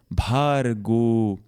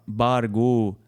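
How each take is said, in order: First: The first consonant is said with a puff of air. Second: The first consonant is said without a puff of air. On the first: The speaker calls it right. "a pronúncia correta aqui é bhargo" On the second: The speaker calls it wrong. "também é muito comum falar bargo"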